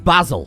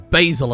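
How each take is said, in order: First: The name is said with a British pronunciation. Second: The name is said with an American pronunciation.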